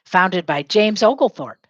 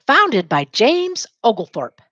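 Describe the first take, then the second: First: Said in the usual way. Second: "Founded by James Oglethorpe" said slowly, "Founded" stressed; slow model line. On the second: Shown as a demonstration. Teacher modelling a line for students to repeat, slowly. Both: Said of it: "Say it".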